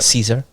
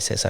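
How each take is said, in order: First: The name is said with English pronunciation. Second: The name is said with Spanish pronunciation. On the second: "we say Cesar in Spanish"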